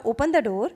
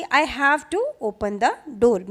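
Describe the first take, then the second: First: Said in the usual way. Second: Each word spelled out very slowly; slow, deliberate model sentence; slow teaching demo. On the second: Shown as a demonstration. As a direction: say it slowly for a child to copy. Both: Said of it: "तो वो समझ जाएगा कि".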